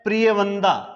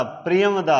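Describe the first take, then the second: First: प्रिय वंदा with nasal n in the last word; common mispronunciation. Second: प्रियम वदा with m closing the first word; correct pronunciation. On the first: Teacher showing students how everyone says it, common mispronunciation. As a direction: say प्रिय वंदा, n sound before the final दा. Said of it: "इसका उच्चारण तो हम कर रहे हैं". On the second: Teacher correcting the common form for students, correct pronunciation. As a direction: say प्रियम वदा, no n before the final दा. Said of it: "लेकिन ये प्रिय वद". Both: Shown as a demonstration.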